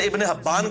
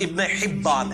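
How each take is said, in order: First: The name's first vowel is an 'a' sound. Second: The name's first vowel is an 'i' sound. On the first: The speaker calls it wrong. "हम वैसे इब्ने हब्बान कह रहे होते हैं" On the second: The speaker calls it right. "यह लफ्ज इब्ने हिब्बान है"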